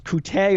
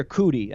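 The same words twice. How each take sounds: First: Coutee said as koo-TAY; alternative pronunciation. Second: Cootie said as KOO-tee; alternative pronunciation. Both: Shown as a demonstration. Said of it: "I don't know if it's Coutee or Cootie".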